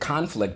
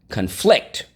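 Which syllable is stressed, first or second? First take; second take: first; second. First: The stress is on the first syllable. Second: The stress is on the second syllable. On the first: It names a struggle or fight. "I said conflict before" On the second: It means things clash or differ. "accent is on the second syllable"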